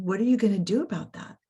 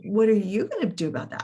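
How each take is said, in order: First: Said in the usual way. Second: Retold retort with a strong stress on "you". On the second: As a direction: toss the question back, leaning on "you". Throws the same question back.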